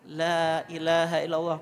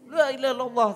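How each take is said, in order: First: It is said slowly and clearly, without hurrying. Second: It is said quickly and hurriedly, words run together. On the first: The speaker calls it right. "jelas nggak usah tergesa-gesa" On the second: The speaker calls it wrong. "Pokoknya nggak usah ngerecuk"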